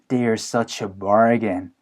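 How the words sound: It is said in a negative, sarcastic tone. The items are actually overpriced. "되게 안 좋게 얘기를 해주시는 거고"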